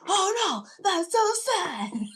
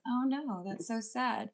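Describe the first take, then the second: First: It is said loudly, like yelling. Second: It is said at a normal, quiet volume.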